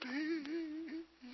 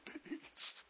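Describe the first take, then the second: First: The word is stretched out very long. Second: The word is said short and plain.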